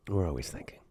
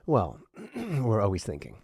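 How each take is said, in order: First: Breathy whispered repeat of the line. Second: Said in the usual way. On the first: Shown as a demonstration. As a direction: whisper it to yourself, barely voiced.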